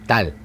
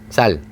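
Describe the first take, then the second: First: The word begins with a tense 't' sound. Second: The word begins with a tense 's' sound. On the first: The speaker calls it wrong. "일곱 살 때까지 쌀 발음을 못했어요" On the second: The speaker calls it right. "쌀 하면"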